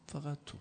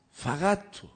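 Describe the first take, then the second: First: A soft, inward فقط تو; hushed "only you". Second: فقط تو raised higher and hit harder; emphatic "only you". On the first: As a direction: say فقط تو almost under the breath, much softer. (فقط تو آهسته و آرام) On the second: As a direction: land فقط تو as the climax. (فقط تو با تأکید و صدای بلندتر) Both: Acted. Preacher repeats "only you" for emphasis.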